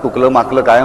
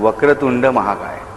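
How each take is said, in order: First: The syllables are slurred into garbled sounds. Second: The syllables are pronounced clearly and fully.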